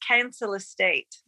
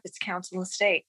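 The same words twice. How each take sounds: First: Slow West Country "Council estate" with a heavy, unfamiliar vowel on "Council"; imitating West Country accent. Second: Said in the usual way. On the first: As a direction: quote the singer, slowly, in West Country accent. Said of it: "Andy says". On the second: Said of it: "We had to look it up".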